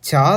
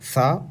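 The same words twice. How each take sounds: First: The first consonant is said hard and strong. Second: The first consonant is said softly, not hard. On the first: The speaker calls it right. "இச்சுக்கு சா தான் வருமே" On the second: The speaker calls it wrong. "தவிர சா வராது"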